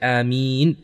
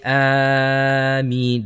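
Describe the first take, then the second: First: The last vowel is drawn out long. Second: The first vowel is drawn out long. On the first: The speaker calls it right. "only we can make the meem, the last part of it" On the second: The speaker calls it wrong. "We are not allowed to say Ameen because that changes the meaning"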